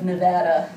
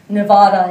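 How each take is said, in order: First: The word has the local American pronunciation. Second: The word sounds close to its Spanish original. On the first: "instead of Nevada" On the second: "I was uh, pronouncing it Nevada"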